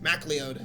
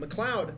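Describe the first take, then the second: First: The first syllable is a full 'mack'. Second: The first syllable is a short, reduced 'muh'. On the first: The speaker calls it right. "no, it's MacLeod" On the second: The speaker calls it wrong. "a lot of people mispronounce it"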